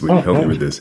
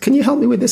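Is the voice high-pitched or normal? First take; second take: normal; high-pitched. First: It is said in a normal voice. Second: It is said in a high-pitched voice.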